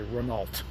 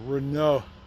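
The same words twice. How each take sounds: First: It is said with a plain American pronunciation. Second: It is said with a nasal French vowel. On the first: The speaker calls it wrong. "Us Americans say Renault, and that's not correct" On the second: The speaker calls it right. "with your nasal passages working is how you say it correctly"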